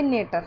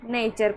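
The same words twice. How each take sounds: First: Put-on नेटर with a hard retroflex T, as kids misread it; wrong reading. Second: नेचर with a clear CH sound; correct reading. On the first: Teacher showing students' mistake: नेटर said with hard T. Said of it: "नेटर नहीं पढ़ना है". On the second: Teacher giving the right way: नेचर with CH. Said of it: "इसको नेटर नहीं पढ़ना है". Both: Shown as a demonstration.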